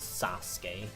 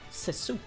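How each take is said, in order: First: The first syllable sounds like 'sah'. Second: The first syllable sounds like 'say'. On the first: The speaker calls it right. "the Japanese pronunciation is Sasuke" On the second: The speaker calls it wrong. "I thought he was called Seisuke"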